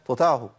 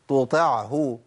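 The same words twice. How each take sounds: First: The ain sound is weakened and nearly dropped. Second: The ain sound is pronounced clearly and firmly. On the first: The speaker calls it wrong. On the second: The speaker calls it right.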